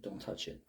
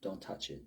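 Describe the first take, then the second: First: Hushed repeat of "Don't touch it"; whispered warning. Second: Said in the usual way. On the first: Retold or imitated. God warning people off the altar, hushed repeat. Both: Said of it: "He says".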